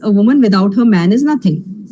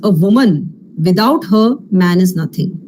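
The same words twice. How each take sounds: First: It is said without pauses inside the sentence. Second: It pauses after 'woman' and after 'her'. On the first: A woman is nothing without her man. "So we all know the meaning of this" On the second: A man is nothing without a woman. "when you use the pause"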